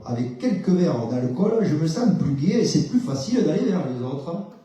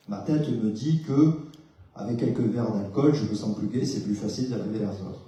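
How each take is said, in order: First: Sing-song Southern French accent, a bit louder and laughing. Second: Said in the usual way. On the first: Shown as a demonstration. Therapist demos the thought in a Southern French accent. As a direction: roll it out with a Marseille lilt. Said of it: "me le dire avec un autre accent". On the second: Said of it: "à voir ça comme une pensée".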